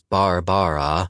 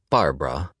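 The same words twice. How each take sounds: First: The name is said with three full syllables. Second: The name is shortened to two syllables. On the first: "or three if you insist upon pronouncing Barbara as Barbara" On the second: "as opposed to the shortened Barbara"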